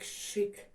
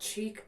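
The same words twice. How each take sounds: First: The word begins with an 'sh' sound. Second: The word begins with a 'ch' sound. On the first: The speaker calls it right. "it's more like chic" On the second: The speaker calls it wrong. "it's more like not chic"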